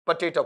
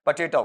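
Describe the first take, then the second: First: "पोटैटो" with full first o, poh-tay-toh; mistaken potato. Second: "पोटैटो" as puh-TAY-tau; corrected potato. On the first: Teacher rejecting the usual reading, mistaken "poh-tay-toh". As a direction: say "पोटैटो" the mistaken way, round o at both ends. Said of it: "पोटैटो नहीं". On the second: Teacher giving students the right reading, corrected "puh-tay-tau". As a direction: say "पोटैटो" with weak first vowel and au ending. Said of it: "क्या पढ़ा जाएगा आपका?". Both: Shown as a demonstration.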